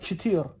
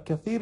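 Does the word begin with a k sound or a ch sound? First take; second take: ch; k. First: The word begins with a ch sound. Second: The word begins with a k sound. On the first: This is the form in some dialects. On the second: This is the common form.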